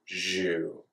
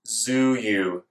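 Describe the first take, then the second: First: The z and y merge into zh. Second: A z sound is followed by y. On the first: "make the zh sound out of the z, z sound" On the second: "make the zh sound out of the z, z sound"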